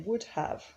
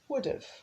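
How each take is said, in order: First: Both words are pronounced fully and separately. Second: The two words are reduced and run together. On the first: The speaker calls it wrong. "We don't say would have" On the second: The speaker calls it right. "we say would have"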